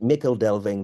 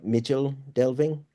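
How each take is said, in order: First: The first word has a hard k sound. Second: The first word has a ch sound. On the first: This is how the speaker always says it. "I've always pronounced it" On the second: This is how others say it. "they'll say like"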